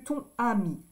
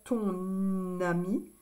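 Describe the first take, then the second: First: The N sound is not linked to the next word. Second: The N sound links into the next word. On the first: The speaker calls it wrong. "que ton ami" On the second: The speaker calls it right. "C'est plus joli de dire ton ami"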